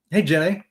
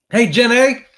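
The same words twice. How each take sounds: First: Said in the usual way. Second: High, loud call of a movie character; loud Forrest Gump-style hail. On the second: Acted. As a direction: holler the greeting like a simple Southern film hero. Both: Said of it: "say it like Forrest Gump".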